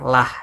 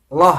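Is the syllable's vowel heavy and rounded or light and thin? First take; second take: light; heavy. First: The syllable has a light, thin, bright vowel. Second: The syllable has a heavy, rounded, dark vowel. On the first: The preceding vowel is i. "Bila sebelumnya berharokat i, maka dibacalah" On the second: The preceding vowel is a or u. "bila sebelumnya berokat a atau u maka dibaca loh"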